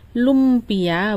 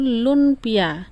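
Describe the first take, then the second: First: The first syllable ends with an m sound. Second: The first syllable ends with an n sound. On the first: The name comes from a night market's name. "Lumpiaku berasal dari kata Olimpia" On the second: The name means soft cake in Hokkien. "Lun artinya lunak, pia artinya kue"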